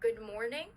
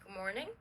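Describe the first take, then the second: First: The final consonant of good stays distinct. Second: The final consonant of good blends into the next.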